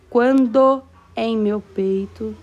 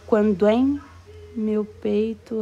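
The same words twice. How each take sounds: First: The vowels between the words are kept separate. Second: The vowels between the words are joined together. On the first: The speaker calls it wrong. "Eu não digo" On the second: The speaker calls it right. "eu digo"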